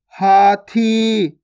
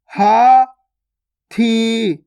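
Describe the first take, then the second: First: हाथी joined, both vowels long; joined, stretched word. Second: हाथी split as haa, pause, thee; syllable by syllable. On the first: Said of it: "खींच के पढ़ना है". (हाथी मिलाकर, खींचकर) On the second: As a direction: slowly sound out हाथी in two held syllables. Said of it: "direct मात्रा का उच्चारण करके पढ़ेंगे". (हाथी को तोड़कर, हा... थी) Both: Shown as a demonstration.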